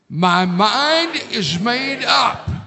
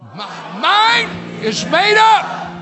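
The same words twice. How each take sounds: First: It is said calmly, without strong force. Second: It is said with strong, forceful emphasis.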